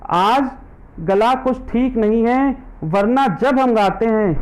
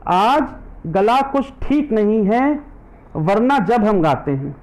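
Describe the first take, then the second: No difference in how they are said.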